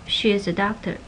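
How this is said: The pitch falls at the end. It is a plain statement. "stated like a statement"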